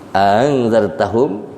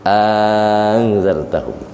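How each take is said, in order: First: The softened hamza comes without any vowel lengthening. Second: The softened hamza comes with a lengthened vowel. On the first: "Tashil yang pertama bidunil maddi" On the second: "yang kedua bil maddi"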